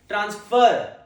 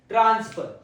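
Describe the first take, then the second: First: The stress is on the second syllable. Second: The stress is on the first syllable. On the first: It is a verb meaning to move something. "The second pronunciation" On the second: It is a noun naming the act of moving something. "The first syllable is stressed"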